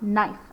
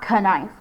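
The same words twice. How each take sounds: First: The word starts with the N sound. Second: A K sound is heard before the N. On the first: The speaker calls it right. "It's silent" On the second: The speaker calls it wrong. "So it's not knife"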